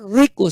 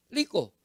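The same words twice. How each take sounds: First: "rico" with a trilled R; correct rolled R. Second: "rico" said as "liko"; faulty "rico", starting with L; mispronounced R. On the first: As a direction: roll the R in "rico". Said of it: "él no puede pronunciar rico". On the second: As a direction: put an L for the R in "rico". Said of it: "sino rico". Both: Shown as a demonstration.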